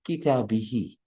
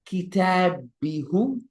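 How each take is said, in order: First: The final pronoun ends with an 'ee' vowel. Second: The final pronoun ends with an 'oo' vowel. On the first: The speaker calls it right. "It is how do you pronounce it and it flows" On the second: The speaker calls it wrong. "No. No"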